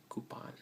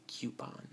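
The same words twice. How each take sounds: First: Coupon said koo-pon. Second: Coupon said kyoo-pon. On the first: Speaker showing the form she avoids. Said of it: "not coupon". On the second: Speaker showing her coupon. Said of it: "We actually say coupon". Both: Shown as a demonstration.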